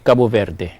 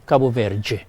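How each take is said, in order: First: The last syllable starts with a plain d sound. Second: The last syllable starts with a j sound. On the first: This is how a speaker from Portugal says it. "somebody from Portugal" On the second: This is how a speaker from Brazil says it. "The D E, they pronounce with a J sound"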